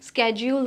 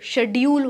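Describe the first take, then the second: First: It begins with an sk sound. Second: It begins with an sh sound. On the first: This is the American pronunciation. "स्केड्यूल is American pronunciation" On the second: This is the British pronunciation. "शेड्यूल is British pronunciation"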